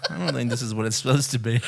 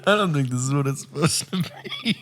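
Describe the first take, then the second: First: Laughing. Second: Higher, laughing repeat of her words; high mocking echo. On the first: Real, not acted. Laughing at brown toilet. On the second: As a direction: echo it back higher, giggling. Echoes the line mockingly.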